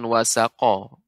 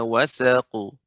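First: The word ends with an added vowel. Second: The word ends on a bare consonant. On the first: The speaker calls it wrong. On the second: The speaker calls it right.

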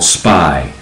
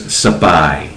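First: The S and P form one cluster. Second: A short vowel separates the S and P. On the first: "It's called Spy" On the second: "The way the Thais pronounce it is Sapai"

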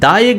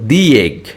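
First: The article is said with a short uh vowel. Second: The article is said with an ee vowel. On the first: The speaker calls it wrong. "দা egg না বলে" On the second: The speaker calls it right. "বলবো দি egg"

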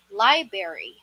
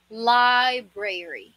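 First: The middle r sound is left out. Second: The middle r sound is clearly pronounced. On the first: The speaker calls it wrong. "Nawawala na tong letter R dito" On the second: The speaker calls it right. "Ang tamang pronunciation dito ay library"

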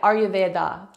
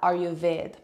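First: The word ends with a final vowel sound. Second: The word ends without a final vowel sound. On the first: "egg on the end" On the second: "many people pronounce that Ayurved"

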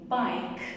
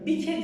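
First: The word ends on the k, with no vowel. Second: An extra vowel is sounded after the final k. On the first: The speaker calls it right. "Sondaki E harfleri hatırlarsak öncesinde bir sessiz harf olduğunda okunmuyordu" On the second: The speaker calls it wrong. "Bike değil"

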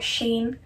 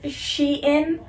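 First: The name is said as one syllable, sheen. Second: The name is said as two syllables, she-in. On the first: The speaker calls it wrong. "not Shein" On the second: The speaker calls it right. "They say Shein In, so that's how you know the website's name is Shein"

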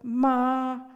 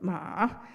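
First: The word is said in the first tone. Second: The word is said in the third tone. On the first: It means mother. "when spoken in the first tone" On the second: It means horse. "In the third tone"

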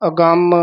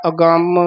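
No difference in how they are said.

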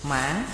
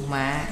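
First: The pitch dips down and rises back. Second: The pitch drops low and is cut short. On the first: "Hồi thanh, thí dụ mã, dấu hỏi" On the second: "Hạ thanh, thí dụ mạ, dấu nặng"

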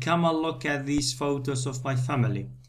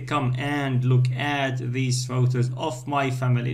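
First: Key words are stressed; small words are weak. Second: All the words get about equal stress. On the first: The speaker calls it right. "No, say" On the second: The speaker calls it wrong. "We don't say"

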